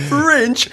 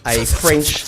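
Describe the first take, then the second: First: "French" said with a nasal French vowel and a higher pitch; "French" as a Frenchman would say it, higher; mock French accent. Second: Said in the usual way. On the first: Shown as a demonstration. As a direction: make "French" sound French, sung up high. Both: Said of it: "Out of respect for the French".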